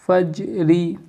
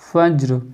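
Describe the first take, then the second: First: फज्री with the final "ri" voiced; joined ending. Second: फज्र with no final "ee"; stopped ending. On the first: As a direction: end फज्री on a full "ee" vowel, as if reading on. (फज्री के आख़िर में "री" पूरा बोलते हुए) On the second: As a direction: stop फज्र on a vowelless r. (फज्र के "र" पर रुककर, बिना "ई" के) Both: Shown as a demonstration. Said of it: "रुकेंगे तो फज्र".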